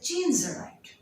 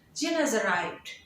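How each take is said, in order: First: The word has is contracted to a single s. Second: The word has is weakened to a short as. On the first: "you will make it more shorter" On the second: "If you will weaken the sound"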